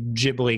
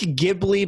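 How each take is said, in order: First: It begins with a soft J sound. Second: It begins with a hard G sound. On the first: "If there was no H, then it would be" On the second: "because there's an H, so it's a hard"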